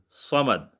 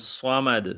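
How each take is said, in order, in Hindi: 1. यह भारी 'स' की आवाज़ से शुरू होता है। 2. यह भारी 'स' की आवाज़ से शुरू होता है।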